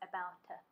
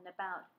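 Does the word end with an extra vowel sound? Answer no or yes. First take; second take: yes; no. First: An extra schwa syllable is added after the t. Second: The word ends cleanly on the t sound.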